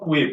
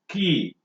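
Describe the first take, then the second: First: It does not sound like the word key. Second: It sounds exactly like the word key. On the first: The speaker calls it wrong. "It is not quay" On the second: The speaker calls it right. "It is to be pronounced as key"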